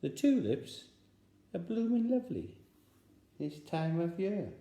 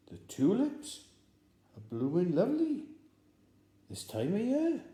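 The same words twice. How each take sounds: First: Much higher, loud sing-song code; spy code phrase. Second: Much higher, louder, pressing; insistent code phrase. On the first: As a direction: give the password with meaning. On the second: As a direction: push the password again, meaningfully. Spy repeats code insistently. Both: Acted.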